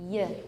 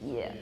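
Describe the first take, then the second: First: The sound is made with a plain, smooth voice. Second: The sound is made with a creaky, rough voice.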